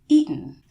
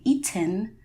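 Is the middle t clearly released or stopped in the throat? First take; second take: stopped; released. First: The middle t is stopped in the throat. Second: The middle t is clearly released.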